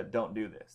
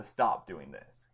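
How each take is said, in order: First: Said in the usual way. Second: Slow, heavy stress on "stop"; firm stop. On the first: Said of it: "This is a "Stop doing this". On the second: Shown as a demonstration. Teacher contrasting a mild ban with a firm stop, slow and emphatic. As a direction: lean hard on "stop" and draw it out. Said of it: "instead of just a, "Don't do this".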